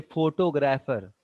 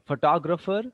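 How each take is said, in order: First: PHOto-grapher, like photograph plus an ending; wrong first-syllable stress. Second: PhoTOGrapher, stressed on the second syllable. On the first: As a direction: stress pho and keep grapher full. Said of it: "the right word is photographer". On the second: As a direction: lean on tog in photographer. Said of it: "always the stress is on two". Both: Shown as a demonstration.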